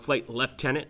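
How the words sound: It is said in a British accent.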